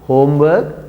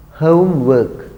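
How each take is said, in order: First: HOMEWORK with a pure o in HOME, rising at the end; common mispronunciation. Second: HOMEWORK with gliding OH-oo in HOME, falling tune; correct pronunciation. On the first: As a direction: quote HOMEWORK without the OH-oo glide. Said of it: "but many say homework". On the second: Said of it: "It's not homework". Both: Shown as a demonstration.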